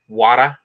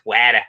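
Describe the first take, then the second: First: It is said in a New York accent. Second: It is said in a Boston accent. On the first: "In in New York, it's water" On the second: "In Boston, it's wada"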